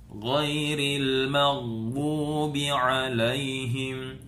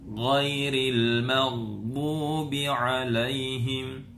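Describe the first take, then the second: Both takes have the same delivery.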